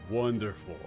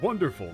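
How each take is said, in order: First: It is said with a dry, mocking tone. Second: It is said with genuine, warm enthusiasm. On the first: The speaker is not actually pleased. "oh, wonderful" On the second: The speaker truly welcomes it. "wow, wonderful"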